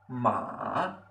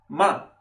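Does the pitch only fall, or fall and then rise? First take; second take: fall-rise; fall only. First: The pitch falls first and then rises. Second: The pitch falls sharply downward only. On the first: "Este es el tercer tono" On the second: "Así es como vamos a pronunciar el cuarto tono"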